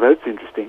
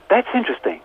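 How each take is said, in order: First: It sounds flat and dismissive, without real interest. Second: It sounds lively and curious, with genuine interest. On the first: The matter is brushed off as unimportant. The speaker calls it wrong. "And not that's interesting, you know, in the way we, you know" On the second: The matter is genuinely worth exploring. The speaker calls it right. "we do that by being interested"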